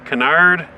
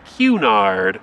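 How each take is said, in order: First: The name is said the Canadian way. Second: The name is said the British way. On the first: This is how the man's own country says it. "that's the Canadian way of saying the actual man's name" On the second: This is how people overseas say it. "across the pond we get a lot of people saying it's Cunard"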